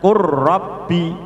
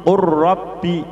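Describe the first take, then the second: First: The l merges into a doubled r. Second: The l merges into a doubled r.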